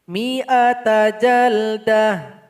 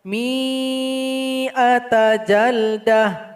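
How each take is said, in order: First: The vowel after the first m is kept short. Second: The vowel after the first m is drawn out long. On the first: The speaker calls it right. "maka dia dibaca pendek" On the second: The speaker calls it wrong. "Salah kalau dibaca"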